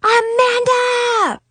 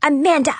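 First: High, slow, drawn-out yell of the name; long shout. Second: Quick, louder call of "Amanda!", clipped at the end; short yell. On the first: Big sister calling angrily up to her sister in the tower, long shout. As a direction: bellow it across the yard. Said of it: "I screamed as I rushed out of the store". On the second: Big sister yelling up at her sister again, short sharp yell. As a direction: snap the name once. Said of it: "I yelled". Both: A narrator's reading.

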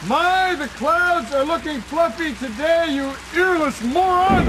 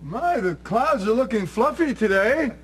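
First: Slow, much higher exasperated shout; exasperated yell. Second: Slow, higher, pointed hint; pointed signal line. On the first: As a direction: bellow the code phrase in frustration. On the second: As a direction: drop the code phrase slowly and pointedly. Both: Pretend. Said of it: "I, I said".

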